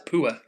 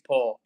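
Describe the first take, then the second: First: It is said in a North East English accent. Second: It is said in a standard English accent.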